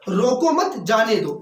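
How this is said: The pause comes after 'mat'.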